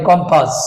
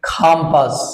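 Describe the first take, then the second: First: The first vowel is an o sound. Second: The first vowel is an a sound, with a breathy k. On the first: The speaker calls it wrong. "আমরা যেটা বলি কম্পাস" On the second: The speaker calls it right. "Then খাম্পাস"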